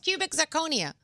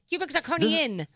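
First: The last word ends without an n sound. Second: The last word ends with an n sound. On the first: The speaker calls it right. "No, it's cubic zirconia" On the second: The speaker calls it wrong. "There's no N?"

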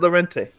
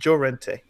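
First: The name begins with an L sound. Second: The name begins with a J sound. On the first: The speaker calls it wrong. "Llorente isn't Llorente" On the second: The speaker calls it right. "The double L in Spanish is pronounced as the J in English"

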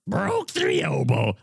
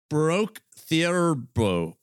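First: It is said in Barney's character voice. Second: It is said in his normal voice.

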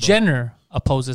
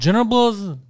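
First: Each word is articulated clearly and separately. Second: The words are swallowed and mumbled together. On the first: The speaker calls it right. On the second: The speaker calls it wrong. "He keeps eating his words"

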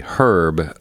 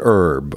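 First: It is said the British way, with H. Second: It is said the American way, without H.

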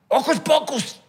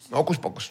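First: It is said loudly, with great energy. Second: It is said flatly, without energy.

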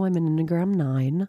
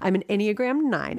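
First: It is said in an exaggerated put-on voice. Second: It is said in her normal speaking voice.

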